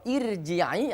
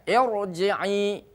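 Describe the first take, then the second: First: The r sound is thin and light. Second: The r sound is thick and heavy. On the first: The speaker calls it wrong. "Tidak boleh kita baca" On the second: The speaker calls it right. "tapi dibacanya irji'i"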